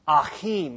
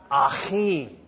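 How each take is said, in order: First: Achim with a throat-clearing ch, ah-KHEEM; throaty Hebrew ch. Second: Achim repeated with a rasping ch; throaty Hebrew ch. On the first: Pastor showing how to say the Hebrew word. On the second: Pastor repeating the word for the church. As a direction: rasp the ch in Achim again. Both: Shown as a demonstration. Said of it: "you gotta clear your throat when you say that".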